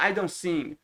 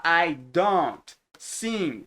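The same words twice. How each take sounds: First: "I don't sing" run together as "I don sing"; native linked pronunciation. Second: "I don't sing" very slowly, D and T both sounded; full careful pronunciation. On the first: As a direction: drop the T of "don't" and link it. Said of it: "ele fala". ("I don't sing" emendado, sem o T) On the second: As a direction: separate each word of "I don't sing". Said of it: "ele não fala". ("I don't sing" bem devagar, com D e T pronunciados) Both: Shown as a demonstration.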